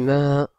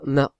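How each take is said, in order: First: The vowel is drawn out a little longer. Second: The vowel is short, not drawn out. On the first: The speaker calls it right. "on dit ma, on en prolonge un petit peu" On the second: The speaker calls it wrong. "on dit pas ma"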